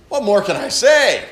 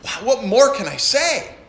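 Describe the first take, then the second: First: Louder, fed-up sigh of a question; exasperated preacher reading. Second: Bright, eager wow; bubbling over with wonder; excited preacher reading. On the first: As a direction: throw up your hands. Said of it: "an exasperated tone". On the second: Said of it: "like an excited". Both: Shown as a demonstration.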